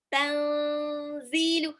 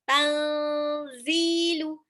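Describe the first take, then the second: Both takes have the same delivery.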